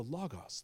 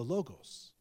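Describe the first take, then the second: First: Logos as LAH-gahs; open-vowel pronunciation. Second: Logos as LOH-gohs; long-o pronunciation. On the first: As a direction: give Logos two open "ah" sounds. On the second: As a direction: give Logos two long "oh" sounds. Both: Shown as a demonstration. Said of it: "depending on how you wanna say it".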